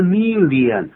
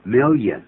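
First: "million" drawn out as mi-li-an, high and loud; exaggerated mispronunciation. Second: "million" in two syllables, MIL-yun; correct pronunciation. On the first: Teacher showing how not to say "million", loud stretched mi-li-an. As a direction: overdo "million" in three slow syllables. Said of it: "不是million". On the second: Teacher modelling "million" for learners, firm MIL-yun. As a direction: say "million" with a y glide after the l. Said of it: "而它是这么念的". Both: Shown as a demonstration.

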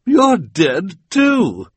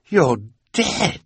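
First: Much higher, louder and slow; You're dead too, shrieked high and drawn out; shrieking Esme. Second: Higher, disbelieving villain; rising disbelief, You're dead; stunned Olaf. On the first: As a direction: cry out in shock. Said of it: "she cried". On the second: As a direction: gape at a ghost. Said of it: "saying something that he knew full well was ridiculous". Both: A narrator's reading.

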